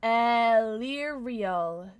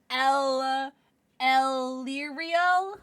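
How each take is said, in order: First: Very slow, stretched "Elirial"; careful name attempt. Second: Halting, unsure "Elirial" with a drawn-out L; butchered name. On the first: Streamer retrying a viewer's name "Elirial", slow and careful. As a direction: sound out "Elirial" carefully, drawing out each part. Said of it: "Did I say that right?". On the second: Streamer misreading a viewer's name "Elirial", hesitant stumble. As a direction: stumble into "Elirial" slowly, as a question. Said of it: "I butchered that". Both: Real, not acted.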